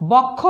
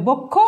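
First: বক্ষ with open ɔ, "bawk-kho"; as written, open vowel. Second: বক্ষ with rounded o, "bok-kho"; as pronounced, closed o. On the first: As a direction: say বক্ষ as spelt, first vowel wide. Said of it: "লিখেছি". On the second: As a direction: say বক্ষ with first vowel closed to o. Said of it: "উচ্চারণ হবে". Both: Shown as a demonstration.

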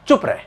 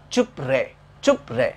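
First: High, abrupt telling-off; acting out a curt public rebuke; mock scolding. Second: "चुप रहे" low, as chup-ray; "चुप रहे" sounded out low, without scolding; mnemonic word part. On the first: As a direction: snap it as an order to hush. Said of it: "डांट रहा है". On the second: Shown as a demonstration. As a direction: read out "चुप रहे" evenly as a word fragment. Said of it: "आप सिर्फ उसे pronounce".

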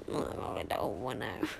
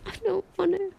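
First: Much lower, softer groan; reluctant whine. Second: Whiny protest. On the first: Streamer doesn't want to end the stream, low grumbling whine. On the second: Streamer pleads to keep streaming, high whiny protest. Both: Real, not acted. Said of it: "reluctant to end stream".

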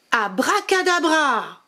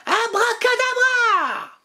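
First: A touch higher, slower spell call. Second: High, slow shouted magic word; shouted spell. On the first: Witch casting her second spell, mild calling voice. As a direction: call the magic word out again, milder. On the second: Witch casting a spell, high slow shouted abracadabra. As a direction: bellow the spell with a flourish. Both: Acted.

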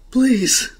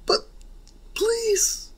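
First: Louder, higher begging please. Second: "please" in a very high squeaky whine. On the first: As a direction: beg out loud. Denki begs to join the group. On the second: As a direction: whine "please" like a pleading kid. Denki begs again, squeakier. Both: Acted.

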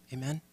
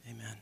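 First: Amen lifted into a short question. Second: Said in the usual way. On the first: Real, not acted. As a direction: ask Amen? with a rising end to invite a reply.

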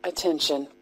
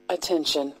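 Both takes have the same delivery.

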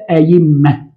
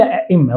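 First: "أئمة" as ayimma, y replacing the second hamza; standard ya form. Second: "أئمة" as a-'imma, both hamzas sounded; permitted hamza form. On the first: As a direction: glide through "أئمة" with a y. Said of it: "القياس والقاعدة أن نقول". ("أئمة" تنطق بالياء بدل الهمزة) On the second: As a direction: break "أئمة" with a glottal stop. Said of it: "يجوز أن أقول". ("أئمة" بهمزتين محققتين) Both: Shown as a demonstration.

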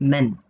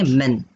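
First: मेन modelled with short e; मेन modelled for students to repeat; clear pronunciation. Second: मेन said with a short e as in "men"; मेन crisply modelled for the class to repeat; clear pronunciation. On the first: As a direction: say मेन slowly for class to copy. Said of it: "बोलिए मेरे साथ". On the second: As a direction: spell out मेन for the class to copy. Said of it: "देखो pronunciation पे ध्यान देना". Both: Shown as a demonstration.

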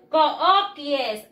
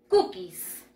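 First: "Cookies" read as spelled, "koh-kee-es"; "Cookies" with Spanish vowels, ko-o-ki-es. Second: "Cookies" said "kukis"; "Cookies" as KU-kis, ending in a hiss; English pronunciation. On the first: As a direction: sound out every vowel in "Cookies". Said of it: "Así se escribe". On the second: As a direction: say "Cookies" in two syllables, oo as u. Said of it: "Y se pronuncia". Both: Shown as a demonstration.

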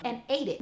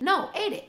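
First: Said in the usual way. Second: "ate" punched higher and louder; stress on ate. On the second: Shown as a demonstration. Insisting to viewers the dog really "ate" it, stressing "ate".

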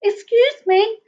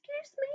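First: High voice at full volume; high, audible polite interruption; repeated plea. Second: Tiny, high, barely audible squeak; very soft, high, timid plea; very small voice. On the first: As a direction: pipe up clearly to get attention. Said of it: "said Basil again". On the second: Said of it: "in a very small voice". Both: A narrator's reading.

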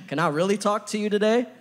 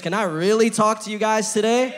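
First: Higher, louder call to the crowd; rallying crowd question. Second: Higher and louder call to the crowd; loud rallying call. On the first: Preacher calling out to the congregation, higher and louder. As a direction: rouse them with the question. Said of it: "You know what we're really good at?". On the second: Preacher pressing the congregation for a louder answer, higher and louder. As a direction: push them harder to answer. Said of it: "I don't sound convinced". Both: Real, not acted.

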